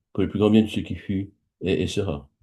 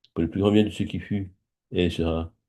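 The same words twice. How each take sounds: Both takes have the same delivery.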